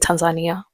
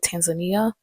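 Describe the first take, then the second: First: It is said the native Swahili way. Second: It is said the common English way. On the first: The speaker calls it right. "no, ni" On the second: The speaker calls it wrong. "they mispronounce this country because they say"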